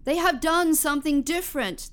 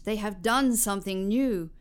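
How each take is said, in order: First: Excited call. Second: Said in the usual way. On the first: Acted. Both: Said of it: "called to the wind".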